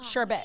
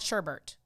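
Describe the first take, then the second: First: The last syllable has no r sound. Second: The last syllable has an extra r sound. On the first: The speaker calls it right. "It's B E T" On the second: The speaker calls it wrong. "It's not sherbet"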